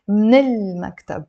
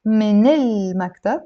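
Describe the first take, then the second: First: من المكتب squeezed into "mnil-maktab", first vowel dropped; native-like linking. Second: من المكتب joined as "minel-maktab", keeping the first vowel; linked. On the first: Teacher showing the even better form, native-like linking. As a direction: start من المكتب straight on "mn", no vowel between. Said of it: "You would sound more native". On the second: Teacher offering a better office phrase, linked. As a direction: carry the n of من into المكتب, "mi-nel". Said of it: "you can say". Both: Shown as a demonstration.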